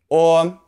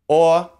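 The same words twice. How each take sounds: First: The vowel is a rounded 'or' sound. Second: The same.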